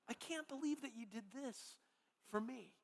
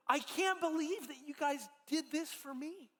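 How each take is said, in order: First: Softer, almost under the breath; hushed repeat. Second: Higher, a touch overwhelmed, lightly voiced Sandy; overwhelmed thanks. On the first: Retold or imitated. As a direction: let the repeat sink down, moved. Sandy repeats her thanks, softer. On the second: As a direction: lift it in grateful disbelief, mildly.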